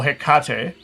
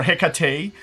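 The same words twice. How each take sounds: First: Hecate with a full "kah" in the middle; alternative pronunciation of Hecate. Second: Hecate with a weak middle, ending "tay"; another pronunciation of Hecate. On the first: Host offering another way to name the goddess, Hecate as "heh-KAH-teh". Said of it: "or however". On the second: Host settling on any name for the goddess, Hecate as "HEK-uh-tay". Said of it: "however you wanna call her". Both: Shown as a demonstration.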